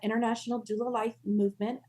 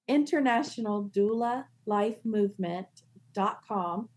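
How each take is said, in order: First: It is said at a normal, quick pace. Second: It is said slowly and deliberately.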